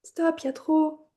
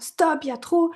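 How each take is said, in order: First: It is said in a pleading tone. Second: It is said in an angry tone.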